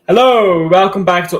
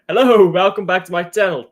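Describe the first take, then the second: First: It is said very loudly. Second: It is said more quietly.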